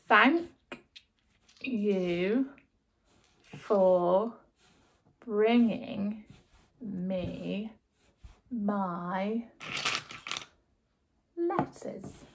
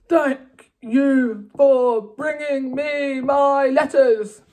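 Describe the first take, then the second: First: It is said in a neutral voice. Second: It is said in a grumpy voice.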